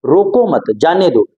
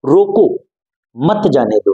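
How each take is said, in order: First: "रोको मत" joined, short break, then "जाने दो"; pause after मत. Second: "रोको" alone, a clear pause, then "मत जाने दो" together; pause after रोको. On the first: Teacher moving the comma, breaking after "मत" before "जाने दो". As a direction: keep "रोको मत" together and set "जाने दो" apart. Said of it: "अल्प विराम को यहाँ से हटा के यहाँ पे लगा दूं". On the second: Teacher showing a comma after "रोको", pausing there before "मत जाने दो". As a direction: break after "रोको", keep "मत जाने दो" as one phrase. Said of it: "अल्प विराम का प्रयोग यहाँ पे किया".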